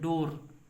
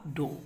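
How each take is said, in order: First: The word ends with a clear r sound. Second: The word ends on the vowel, no r sound. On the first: The speaker calls it wrong. "इसका pronunciation ऐसे करते हैं डोर, एकदम गलत है" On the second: The speaker calls it right. "अंत में आर का उच्चारण नहीं होगा, केवल डो होगा"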